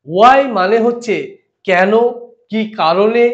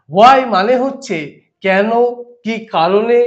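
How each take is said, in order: Both takes have the same delivery.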